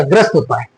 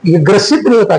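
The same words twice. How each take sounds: First: ग्रस्त as one syllable, "grast"; correct form. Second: ग्रसित in two syllables, "gra-sit"; wrong form. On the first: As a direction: run s straight into t in ग्रस्त. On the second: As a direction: sound the i before the t in ग्रसित. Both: Shown as a demonstration.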